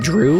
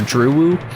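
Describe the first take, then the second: First: The name is said as one syllable. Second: The name ends with an extra 'oo' syllable. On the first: "Do you pronounce that Drew" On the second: "or Drewoo? Like uwu?"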